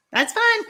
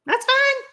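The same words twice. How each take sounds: First: Much higher, light sing-song; high playful "that's fine"; mock forgiving. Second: Much higher, sing-song forgiving; high teasing "that's fine"; mock forgiving. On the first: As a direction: forgive them with a teasing smile. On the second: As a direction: let them off with a playful lilt. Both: Real, not acted. Teasing about a viewer not watching.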